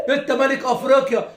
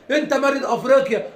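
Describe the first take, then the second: No difference in how they are said.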